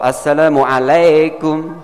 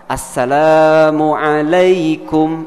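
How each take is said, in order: First: "Assalamualaikum" slowly, said "-lekum" with an E; wrong pronunciation. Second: "Assalamualaikum" very slowly, ending "-laikum" with AI; correct Arabic. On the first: Ustaz showing the wrong greeting with an E. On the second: Ustaz modelling the correct greeting, very slowly. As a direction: draw out "Assalamualaikum" with a clear AI diphthong. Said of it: "Itu benar". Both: Shown as a demonstration.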